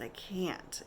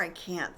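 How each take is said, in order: First: Barely whispered, exhausted; whispered refusal. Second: Said in the usual way. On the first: Retold or imitated. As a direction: breathe it out weakly, no voice. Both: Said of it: "It was more "I can't".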